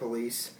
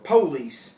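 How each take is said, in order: First: The stress is on the second syllable. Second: The stress is on the first syllable. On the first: This is the usual non-Southern way. "instead of" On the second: This is how Southerners say it. "Southerners typically put stress on the first syllable"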